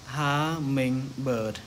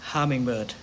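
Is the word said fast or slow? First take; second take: slow; fast. First: The word is said at a slower pace. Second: The word is said at a faster pace.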